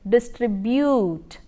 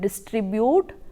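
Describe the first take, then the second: First: A y sound is heard before the u. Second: No y sound is heard before the u. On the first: The speaker calls it right. "but it is distribute, y" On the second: The speaker calls it wrong. "you do not call it distribute"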